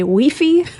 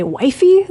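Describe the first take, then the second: First: "weefy" said WEE-fee, with a long ee in both syllables; "weefy" with two ee sounds; mock pronunciation. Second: "wifey" said as WHY-fee, ending in an ee sound; "wifey" with a long i and a final ee; mock pronunciation. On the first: Host mocking how some places say "weefy". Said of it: "They say weefy". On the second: Host mocking how some places say "wifey". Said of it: "In some places they say wifey". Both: Shown as a demonstration.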